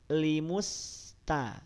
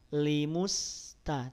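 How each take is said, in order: First: The lips relax right after the m sound. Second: The same.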